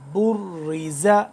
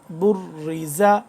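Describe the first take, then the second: No difference in how they are said.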